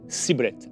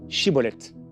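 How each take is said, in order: First: The word begins with an s sound. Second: The word begins with a sh sound. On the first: The speaker is one of the fugitives. The speaker calls it wrong. "Et ils disaient Siboleth" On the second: The speaker is not one of the fugitives. The speaker calls it right. "prononcer correctement ce mot Chiboleth"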